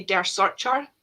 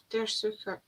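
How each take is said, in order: First: "Searcher" with a Scots r and a ch as in church, drawn out; Scottish-style pronunciation. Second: "Sucker" with a long oo and a k-like middle, soo-ker; corrected German pronunciation. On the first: Host showing how a Scottish brain reads German, Scottish-style pronunciation. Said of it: "in my Scottish, Scottish brain". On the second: Host unsurely copying the co-host's correction, German pronunciation. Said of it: "Suka, I think". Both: Shown as a demonstration.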